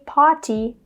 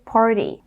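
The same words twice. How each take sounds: First: The middle consonant is a clear T sound. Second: The middle consonant is a quick D sound. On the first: The speaker calls it wrong. "We don't say party" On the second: The speaker calls it right. "a T becomes a fast D"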